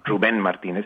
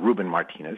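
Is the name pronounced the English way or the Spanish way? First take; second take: Spanish; English. First: The name is pronounced the Spanish way. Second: The name is pronounced the English way. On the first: This is the speaker's real name. The speaker calls it right. "I'm Ruben Martinez" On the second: This is not the speaker's real name. The speaker calls it wrong. "I'm not Ruben Martinez"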